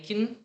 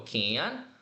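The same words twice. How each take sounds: First: The word has a weak, reduced vowel. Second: The word has a full, unreduced vowel. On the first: "no meio de uma frase, ele acaba sendo reduzido" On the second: "É diferente de falar o verbo sozinho"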